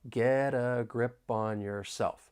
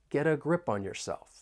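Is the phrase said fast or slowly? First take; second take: slowly; fast. First: The phrase is spoken slowly. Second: The phrase is spoken faster. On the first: "I'll say it slowly" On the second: "I want to say it a little faster"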